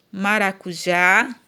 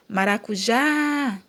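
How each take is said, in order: First: Said in the usual way. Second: MARACUJÁ with the final JÁ held long; drawn-out stress. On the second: Shown as a demonstration. Teacher shows class the stressed syllable, JÁ drawn out in MARACUJÁ. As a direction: linger on the JÁ of MARACUJÁ. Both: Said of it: "a sílaba tônica é o já".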